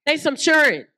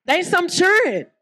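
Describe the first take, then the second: First: "churn" said a bit higher in a Southern way; Southern pronunciation. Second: Southern pronunciation. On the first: Preacher repeating the Southern way of saying it. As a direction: repeat "They some churn" with a Southern accent. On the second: Preacher showing how the South says church kids. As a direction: say "They some churn" with a Southern drawl. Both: Shown as a demonstration. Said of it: "that's how we say it in the South".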